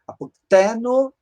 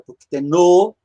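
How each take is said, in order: First: The final vowel is short and unaccented. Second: The final vowel is lengthened and accented. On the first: It is the present tense. "é presente" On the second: It is the future tense. "é futuro. Ele alonga a vogal final"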